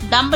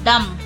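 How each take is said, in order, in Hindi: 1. अंत में b की ध्वनि सुनाई देती है। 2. अंत में b की कोई ध्वनि सुनाई नहीं देती।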